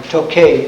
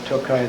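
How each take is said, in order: First: The name is said the American way. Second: The name is said the Hungarian way. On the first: This is how the name is said in this country. "or Tokay in this country" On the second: This is how the name is said in Hungary. "but Tokaj there"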